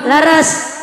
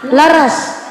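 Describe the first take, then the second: The two takes are said the same way.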